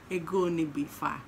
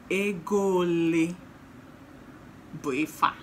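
First: It is said with a standard Igbo pronunciation. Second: It is said with an Anambra dialect accent. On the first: The speaker calls it right. "Better pronounce it like that" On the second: The speaker calls it wrong. "Anambra will not leave my tongue"

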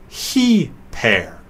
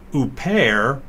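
First: The word begins with an H sound. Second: The word begins with a bare vowel sound. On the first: The speaker calls it right. "but he-pair" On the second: The speaker calls it wrong. "it's not upair"

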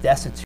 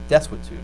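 First: The word has no w sound in the middle. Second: The word has a w sound in the middle. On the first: The speaker calls it wrong. "I always said destitute" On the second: The speaker calls it right. "It's like a W that should be where the U is"

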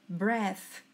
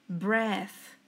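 The two takes are said the same way.

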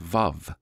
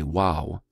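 First: The word begins with a v sound. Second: The word begins with a w sound. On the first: This is how other people pronounce it. "some people say Vav" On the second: This is the speaker's own pronunciation. "I say Wow"

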